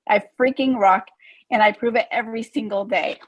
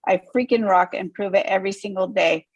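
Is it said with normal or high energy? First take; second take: high; normal. First: It is said with extra energy and smiling. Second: It is said with normal energy.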